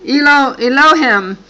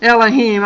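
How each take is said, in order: First: "Elohim" said ee-LOH-him, with a false start on "Elo-"; mispronounced Elohim. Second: Fix it: "Elohim" as EL-uh-heem; corrected Elohim. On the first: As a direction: stumble into "Elo-, Elohim", with a long O on the second sound. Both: Real, not acted. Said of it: "I mispronounced that".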